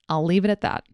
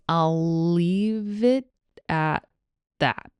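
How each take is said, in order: First: The phrase is spoken at a normal conversational pace. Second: The phrase is spoken slowly and carefully. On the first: "Here it is at normal speed" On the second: "Here it is slowly"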